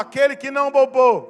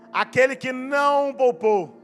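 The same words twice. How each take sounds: First: The phrase is said at a higher volume. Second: The phrase is said at a lower volume.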